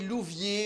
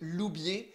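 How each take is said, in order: First: The middle consonant is a v sound. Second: The middle consonant is a b sound. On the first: The speaker calls it wrong. "on a mal prononcé" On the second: The speaker calls it right. "mon nom de famille"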